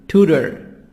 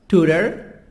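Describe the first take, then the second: First: It is said with an American accent. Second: The same.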